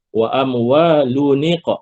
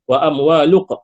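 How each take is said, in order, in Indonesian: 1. Bunyi n akhir disambungkan dengan i ke perkataan seterusnya. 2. Bunyi n akhir digugurkan sebelum perkataan seterusnya. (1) "Itu cara sebutan yang betul" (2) "Jangan jangan baca wa amwalun wa amwaluq. Salah"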